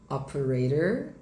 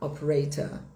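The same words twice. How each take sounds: First: It is said in an American accent. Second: It is said in a British accent. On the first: "inglês, americano, pronúncia americana, o O R fica" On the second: "Em inglês britânico vai ficar"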